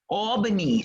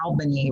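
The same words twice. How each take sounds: First: It is said the New York way. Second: It is said the Southern way, with a short A.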